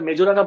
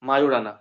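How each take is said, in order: First: The middle consonant is a J sound. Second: The middle consonant is a Y sound. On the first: The speaker calls it wrong. "ওটা মেজোরানা বলে না" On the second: The speaker calls it right. "ওটাকে ওটা মায়োরানা বলে"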